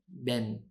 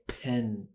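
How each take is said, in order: First: The first consonant has no puff of air. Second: The first consonant has a puff of air. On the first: The speaker calls it wrong. "The air is not p coming out" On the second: The speaker calls it right. "You need a puff of air"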